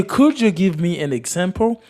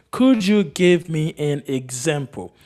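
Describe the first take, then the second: First: Said in the usual way. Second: Slow, word-by-word model question; slow repeat. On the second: Shown as a demonstration. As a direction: repeat it slowly for learners. Slower repeat for learners.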